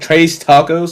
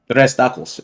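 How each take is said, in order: First: Tres is said like the English word trace. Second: Tres is said with a Spanish accent. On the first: The speaker calls it wrong. "like like ray tracing" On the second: The speaker calls it right. "I just do the accent"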